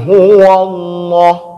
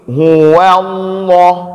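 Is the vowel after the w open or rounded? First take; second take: rounded; open. First: The vowel after the w sounds like a rounded o. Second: The vowel after the w is an open a. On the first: The speaker calls it wrong. "Jangan kita baca" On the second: The speaker calls it right. "buka dulu di waw"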